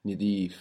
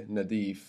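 First: Nidif with a short i in the first syllable; Egyptian-style Nidif, first vowel i; I sound. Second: Nadif with a short a in the first syllable; A sound. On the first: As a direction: say Nidif as ni-DEEF. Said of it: "with a I sound". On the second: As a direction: standard Arabic-style Nadif, first vowel a. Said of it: "With an A there". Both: Shown as a demonstration.

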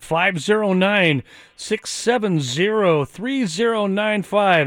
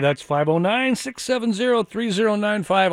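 First: Slow, each digit set apart; measured slow number read; slow dictation. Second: Said in the usual way. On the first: Shown as a demonstration. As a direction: read the number out slowly for listeners to copy. Reading out the phone number.

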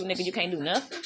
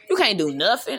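First: Said in the usual way. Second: "You" hit hard and rising; emphatic repeat with "You" stressed. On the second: Real, not acted. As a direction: punch "You" in "You can't do nothing".

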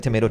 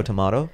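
First: Tomato as to-MAY-to; tomato, rhyming with potato; tomato with long A. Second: Tomato as to-MAH-to, questioning; tomato, the British way with an open AH. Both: Shown as a demonstration. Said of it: "It's like tomato".

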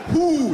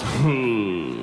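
First: "Who" high and firmly formed; effortful, tight-lipped. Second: Low "Who" that just slides out; barely form "Who", low and loose; slack-lipped. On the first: Shown as a demonstration. Comedian showing how a person talks, crisp effortful "Who". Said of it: "Make an effort, please". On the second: Retold or imitated. Comedian replaying the friend's answer, slack-lipped. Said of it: "It just slid out. Just".

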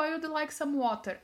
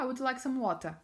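First: "water" with a sounded final r; carefully correct pronunciation. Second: "water" as "wotah", r dropped; casual Australian-style "water", no final r; learned local pronunciation. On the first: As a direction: say "water" the textbook way, r at the end. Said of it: "eu pronunciei certinho". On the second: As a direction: end "water" on an open "ah". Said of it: "coloquei isso mais em prática". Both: Retold or imitated.

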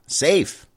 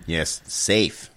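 First: Sarcastic. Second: Said in the usual way. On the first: Acted. Mocking the briefing's word safe.

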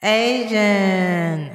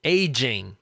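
First: Aging said slowly and deliberately; careful pronunciation. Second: Aging with a clear j sound; Aging said low and careful; corrected pronunciation. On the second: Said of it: "I know, but aging". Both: Shown as a demonstration.

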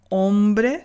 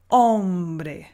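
First: Hombre said as nasal ɔ̃bre; wrong nasal. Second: Hombre with an oral o and a clear m; clear Spanish o. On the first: Teacher imitating the nasal French hombre. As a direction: push hombre through the nose. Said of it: "On ne dit pas". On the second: Teacher giving the correct oral hombre. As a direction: keep air out of the nose on hombre. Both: Shown as a demonstration.

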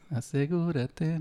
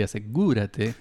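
First: "asegúrate" stretched slowly, stress on the gú, rising end; drawn-out stress. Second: Said in the usual way. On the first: Shown as a demonstration. Host rereads "asegúrate" slowly, leaning on its accent mark. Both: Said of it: "y tiene la tilde".

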